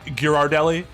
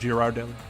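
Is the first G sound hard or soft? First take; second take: hard; soft. First: The first G is a hard G sound. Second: The first G is a soft G sound. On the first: "the hard G"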